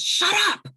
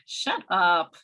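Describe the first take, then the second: First: It is screamed loudly in an angry tone. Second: It is said lightly in a flirtatious tone. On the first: The speaker is angry and frustrated. "if I scream it at the top of my lungs" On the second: The speaker is teasing or flirting. "That would be more flirtatious"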